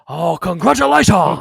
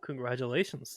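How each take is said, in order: First: It is said in a Trade Federation accent. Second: It is said in his normal voice.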